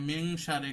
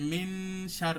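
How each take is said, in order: First: The n blends into a soft nasal before sh. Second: The n is pressed fully with a lengthened hum. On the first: The speaker calls it right. "এখানে এক ফাগুনা" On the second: The speaker calls it wrong. "ওই নুনে কি করছে, মাখরাজ স্থানে চেপে মিন"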